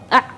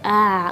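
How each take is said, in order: First: The throat sound is strongly tense. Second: The throat sound is slack and loose. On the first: "terlalu kencang" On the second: "terlalu kendor"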